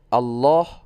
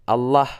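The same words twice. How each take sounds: First: The vowel sounds closer to O. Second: The vowel sounds closer to A. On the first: "lebih ke O" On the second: "lebih ke A"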